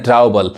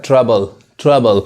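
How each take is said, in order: First: ट्रबल said as "trow-bal"; mispronounced ट्रबल with a wide first vowel; wrong pronunciation. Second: ट्रबल said slowly as "truh-bal"; ट्रबल with silent o, drawn out; correct pronunciation. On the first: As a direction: sound out the ou in ट्रबल. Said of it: "बहुत लोग कहते हैं". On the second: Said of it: "ट्रबल भी नहीं पढ़ाता है". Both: Shown as a demonstration.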